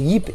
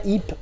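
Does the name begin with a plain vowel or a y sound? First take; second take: y sound; plain vowel. First: The name begins with a y sound. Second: The name begins with a plain vowel. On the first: The speaker calls it right. "c'est Yip, Y I P. C'est comme ça qu'il le prononce" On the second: The speaker calls it wrong. "son prénom en fait c'est pas Yip"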